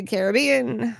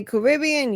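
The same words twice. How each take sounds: First: Caribbean drawn out as CARE-uh-BEE-un; the other pronunciation. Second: Caribbean with stress on RIB; speaker's own pronunciation. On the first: Host gives chat's version, Caribbean slowly as CARE-uh-BEE-un. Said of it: "you say Caribbean". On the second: Host contrasts own way with chat's, Caribbean as kuh-RIB-ee-un. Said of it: "I say Caribbean". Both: Shown as a demonstration.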